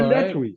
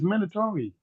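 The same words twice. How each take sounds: First: It is pronounced a non-American way. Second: It is pronounced the American way. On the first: The speaker calls it wrong. "not mandatory" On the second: The speaker calls it right. "We say mandatory. It is mandatory"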